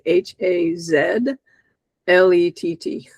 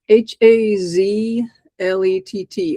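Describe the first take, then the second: First: The letters are named in a Canadian way. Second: The letters are named in a non-Canadian way.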